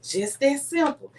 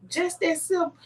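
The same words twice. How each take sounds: First: Slow, settled reply as the husband; retold calm answer. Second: High, incredulous echo of the advice; retold questioning reaction. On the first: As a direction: state it slowly, as a simple fact. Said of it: "He said". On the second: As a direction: repeat it back as a doubting question. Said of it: "And I'm like".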